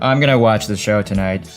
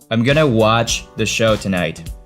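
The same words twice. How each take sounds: First: The word I is stressed. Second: The word I is not stressed.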